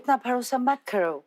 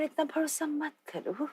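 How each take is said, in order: First: It is said with a British accent. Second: It is said in a seductive, sultry manner. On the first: "British accent" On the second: "in a seductive manner"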